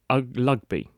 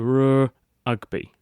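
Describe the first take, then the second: First: The word starts with no R sound. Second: An R is said, then a break before ugby. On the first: "he would say ugby" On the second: "he could go r ugby"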